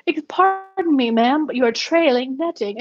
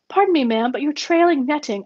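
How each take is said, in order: First: Slow, much higher, hammed-up posh British accent; exaggerated British accent. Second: A hint of a polite British accent, slightly higher; lightly imitating a polite English gentleman. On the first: Driver mimics the Englishman, exaggerated British accent. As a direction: lay the English accent on as thick as you can. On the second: Englishman warns driver about netting, lightly British accent. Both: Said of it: "the most English British that you can muster".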